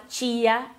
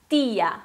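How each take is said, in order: First: "tia" as CHI-a, with a CH; wrong Spanish T. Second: "tia" as TI-a, no CH; soft Spanish T. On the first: Teacher shows what to avoid in Spanish, wrong T. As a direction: say "tia" with a Brazilian CH. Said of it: "pra não falar". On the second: Teacher gives the correct Spanish word, soft T. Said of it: "bem suave". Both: Shown as a demonstration.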